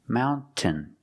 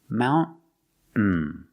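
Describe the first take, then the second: First: The middle T is clearly released. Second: The middle T is a stop without release. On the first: "making the T sound" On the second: "Or you can make a stop T"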